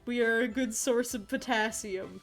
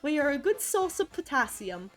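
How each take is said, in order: First: It is said in a normal voice. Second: It is said in a put-on accent.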